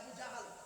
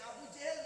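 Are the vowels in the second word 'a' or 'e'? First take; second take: a; e. First: The second word has 'a' vowels. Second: The second word has 'e' vowels. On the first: The speaker calls it right. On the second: The speaker calls it wrong.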